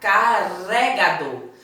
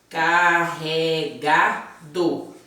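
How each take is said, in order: First: The middle R is a light tapped sound. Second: The middle R is a strong R sound. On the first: The speaker calls it wrong. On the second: The speaker calls it right.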